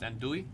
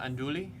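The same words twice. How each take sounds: First: The L sound is left out. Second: The L sound is clearly pronounced. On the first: The speaker calls it right. "You don't say the L at all?" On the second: The speaker calls it wrong. "It's not andouille"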